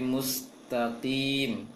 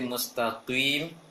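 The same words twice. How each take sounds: First: The q sound is light and thin. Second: The q sound is heavy and thick. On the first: The speaker calls it right. "qafnya kasroh, dikurangi ketebalannya" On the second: The speaker calls it wrong. "Jangan baca nanti mustaqim"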